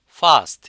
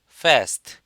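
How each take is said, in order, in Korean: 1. 영국식 열린 뒤 모음이에요, 'ah'처럼. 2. 미국식 앞 모음이에요, 'cat'의 'a'처럼. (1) "영국식은 아" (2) "미국식은 에"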